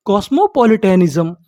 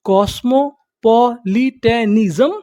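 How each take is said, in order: First: Said in the usual way. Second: कॉस्मोपॉलिटनिज्म slowly in separate syllables, rising at the end; slow teaching breakdown of कॉस्मोपॉलिटनिज्म. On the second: Shown as a demonstration. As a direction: sound out कॉस्मोपॉलिटनिज्म piece by piece. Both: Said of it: "उसे हम लोग क्या बोलते".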